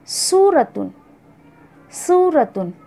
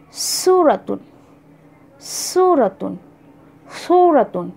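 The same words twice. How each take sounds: First: सूरतुन with a light plain s; Arabic seen in सूरतुन; seen suratun. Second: सूरतुन with a heavy emphatic s; Arabic swad in सूरतुन; swad suratun. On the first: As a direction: keep the s in सूरतुन thin. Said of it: "सीन, वाव, रा और गोलता". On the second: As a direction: thicken the s of सूरतुन from the throat. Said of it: "same उसी pattern पे स्वाद के साथ". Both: Shown as a demonstration.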